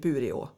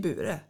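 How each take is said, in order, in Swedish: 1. Namnet slutar med den fulla sista vokalen. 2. Namnet slutar utan den sista vokalen. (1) "jag säger ju aldrig Bureå" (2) "Jag säger Bure"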